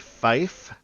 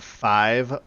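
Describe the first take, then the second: First: The word ends with an F sound. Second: The word ends with a V sound. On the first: It is the clearer radio form of the number. The speaker calls it right. "say fife" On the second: It could be misheard as fire. The speaker calls it wrong. "instead of saying five over the radio"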